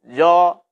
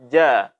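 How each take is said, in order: First: The syllable is heavy, with a dark, thick vowel. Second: The syllable is light, with a thin, clear vowel. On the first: The speaker calls it wrong. "Dengan suara dinaikkan" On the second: The speaker calls it right. "dibaca dengan lembut, dengan tipis"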